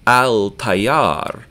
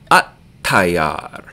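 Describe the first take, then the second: First: The L is pronounced before the T. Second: The L is absorbed into a doubled T. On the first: "We're going to write al-tayyar" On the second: "we're going to say at-tayyar. We won't hear the L"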